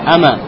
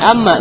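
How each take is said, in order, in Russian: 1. Звук м одиночный и короткий. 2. Звук м удвоен и произносится долго. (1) "а как в данном случае «ама»" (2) "не «амма» нужно читать"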